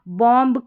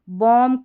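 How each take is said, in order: First: A B sound follows the final M. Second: The word ends on the M sound. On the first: The speaker calls it wrong. "इस तरीके से नहीं पढ़ना" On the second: The speaker calls it right. "इस तरीके से पढ़ना है"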